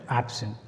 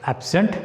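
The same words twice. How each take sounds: First: ABsent, falling away softly after AB; strong AB, soft falling end in absent; noun stress on first syllable. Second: AbSENT, rising on the second syllable; verb stress on second syllable. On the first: Teacher recapping the contrast, stress on first syllable. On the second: Teacher recapping the contrast, stress on second syllable. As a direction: lift SENT in absent. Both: Shown as a demonstration. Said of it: "make the difference by pronouncing them".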